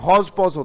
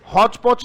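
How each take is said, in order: First: Each syllable ends with a 'j' sound. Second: Each syllable ends with a 'ch' sound. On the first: The speaker calls it right. "ये हौज पौज होता है" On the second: The speaker calls it wrong. "वो च sound देते हैं, जो कि गलत है"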